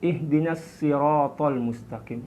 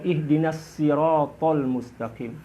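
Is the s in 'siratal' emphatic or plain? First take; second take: plain; emphatic. First: The s of siratal is light and plain. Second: The s of siratal is heavy and emphatic. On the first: This is another accepted reading. "Boleh juga menggunakan sin" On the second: This is the most widely used reading. "Boleh menggunakan shad"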